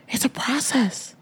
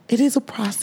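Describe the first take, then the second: First: Soft unvoiced whisper of it's a process. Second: Said in the usual way. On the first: Real, not acted. Host whispering to listeners about the immigration process.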